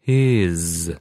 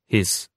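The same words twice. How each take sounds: First: The word ends with a buzzing z sound. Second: The word ends with a hissing s sound. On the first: The speaker calls it right. "this time with the consonants at the end pronounced correctly" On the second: The speaker calls it wrong. "I've read them the same way, all with the sound s"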